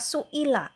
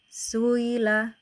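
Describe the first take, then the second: First: A full glottal stop is heard before the i. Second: The glottal stop is softened into a smooth glide. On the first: This is the original form of the word. "Yang asalnya su'ila" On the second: The hamzah is eased between hamzah and a vowel. "pakai tashil gitu"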